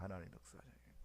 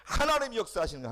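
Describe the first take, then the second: First: Whispered repeat. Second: Higher, louder proclamation; preaching loud. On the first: Preacher repeating the truth to the congregation, in a whisper. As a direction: whisper 하나님 역사하시는 거예요 after the shout. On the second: Preacher proclaiming to the congregation, loud and high. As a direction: call it out to the whole church. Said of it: "그럼 누가 역사하셔요?". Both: Shown as a demonstration.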